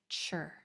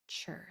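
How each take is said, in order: First: The sound begins with a 'ch'. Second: The sound begins with a 'ch'.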